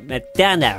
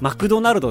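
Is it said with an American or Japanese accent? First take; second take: American; Japanese. First: It is said with an American English accent. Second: It is said with a Japanese English accent.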